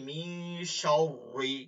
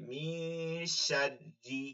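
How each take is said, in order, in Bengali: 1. r ধ্বনিটি মোটা ও ভারী। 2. r ধ্বনিটি চিকন ও হালকা। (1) "অনেকে মিন শাররি পড়ে না" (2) "জের থাকলে পাতলা করে"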